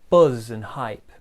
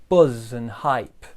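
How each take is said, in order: Both takes have the same delivery.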